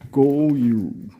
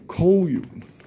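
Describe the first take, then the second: First: The word begins with a G sound. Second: The word begins with a K sound.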